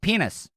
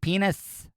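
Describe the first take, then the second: First: The final s is short and plain. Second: The final s is drawn out like a hiss. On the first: The speaker calls it right. "It's just penis" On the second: The speaker calls it wrong. "like they're a goddamn snake"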